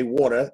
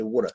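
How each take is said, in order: First: Said in the usual way. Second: Water said wooter, with a rounded oo sound; South Philly water. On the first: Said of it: "They don't say water". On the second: Shown as a demonstration. Actor contrasts standard and South Philly pronunciation of water, in the South Philly accent. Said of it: "They say water".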